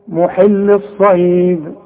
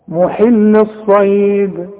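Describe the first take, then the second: Both takes have the same delivery.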